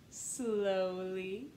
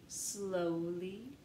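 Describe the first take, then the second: No difference in how they are said.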